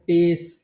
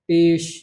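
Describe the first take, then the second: First: The word ends with a plain 's' sound. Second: The word ends with an 'sh' sound. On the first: The speaker calls it wrong. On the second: The speaker calls it right.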